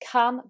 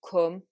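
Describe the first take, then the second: First: The vowel is an open uh sound. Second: The vowel is a fuller, rounded u sound. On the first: "in modern R P British English, we have two vowels for the uh sound" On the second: "with a Manchester accent... replaced by an even slightly fuller version of u"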